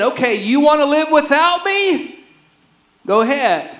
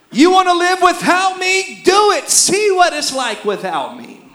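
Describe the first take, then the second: First: High, pointed dare as God; voicing God's challenge. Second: Higher and louder defiant dare; angry God. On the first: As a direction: throw down the challenge to the people. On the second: Acted. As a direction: push it up, daring them to try. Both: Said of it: "God is saying".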